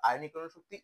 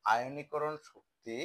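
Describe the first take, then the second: First: Said in the usual way. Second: আয়নীকরণ Shakti said very slowly, word by word; slow dictation. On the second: Shown as a demonstration. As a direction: spell it out slowly for the class. (ধীরে ধীরে বলা) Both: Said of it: "কয়টা part একসাথে করবো?".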